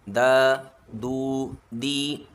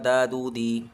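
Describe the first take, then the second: First: Each syllable is said apart with breaks. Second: The three syllables run together without breaks. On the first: The speaker calls it right. "तीनों को अलग अलग पढ़ना है" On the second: The speaker calls it wrong. "इसको इस तरह से नहीं पढ़ना है"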